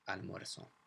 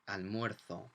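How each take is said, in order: First: The Z is said as an S sound. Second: The Z is said as a TH sound. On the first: "And in South America" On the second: "Or in mainland Spain, ... the Z and some C's become a kind of T H sound"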